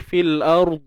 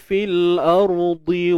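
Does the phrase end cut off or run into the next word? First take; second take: cut off; runs on. First: It stops on the last consonant, with no vowel. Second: A final vowel joins it to the next word. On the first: The reader pauses at this point. "bila kita dah berhenti fil ard, selesai dah" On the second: The reader carries on without pausing. "sambung je lah kan"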